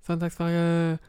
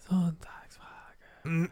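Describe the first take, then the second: First: Said in the usual way. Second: Slow whispered announcer call; monster truck ad. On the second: Pretend. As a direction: whisper it slowly like a hype ad. Jingle for the Sunday question.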